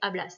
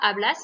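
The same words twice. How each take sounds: First: The stress is on the first syllable. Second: The stress is on the last syllable. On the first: This is the form used with tú. "pour tu, vous connaissez, ça fait hablas" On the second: This is the form used with vos. "on met juste un accent sur le A"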